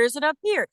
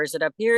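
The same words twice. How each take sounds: First: High placement. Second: Moving up. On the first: Actor testing a character's vocal placement, high up. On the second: Actor testing a character's vocal placement, rising from low. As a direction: voice starting low and climbing on "here". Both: Shown as a demonstration. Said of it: "where she's placed vocally".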